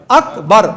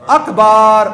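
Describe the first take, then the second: First: اکبر with a short a before the r, lower pitch; correct akbar. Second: اکبر said as akbaar, the vowel before r stretched; wrong akbar. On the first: Teacher modelling the correct akbar for worshippers. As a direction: keep اکبر tight, no extra vowel. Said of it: "صحیح کیا ہے؟". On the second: Teacher showing the congregation the mistaken long vowel. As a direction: draw out the middle of اکبر, wrong on purpose. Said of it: "غلط کیا ہے؟". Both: Shown as a demonstration.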